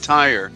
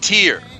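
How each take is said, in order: First: The name sounds like the word 'tire'. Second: The name sounds like the word 'tear'. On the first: The speaker calls it wrong. "It's not Tyre" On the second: The speaker calls it right. "it's pronounced Tyr"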